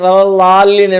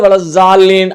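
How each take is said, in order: First: The middle consonant is a heavy d-like sound. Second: The middle consonant is a buzzing z sound. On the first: The speaker calls it right. "இல் லா அந்த சவுண்ட் வரும், அது அரபி" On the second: The speaker calls it wrong. "இது தவறான உச்சரிப்பு"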